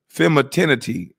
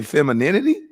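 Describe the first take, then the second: First: "femininity" garbled as fem-uh-TIN-ity; imitated mispronunciation. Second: Said in the usual way. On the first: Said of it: "she had to say her femininity". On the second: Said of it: "Are you trying to say femininity?".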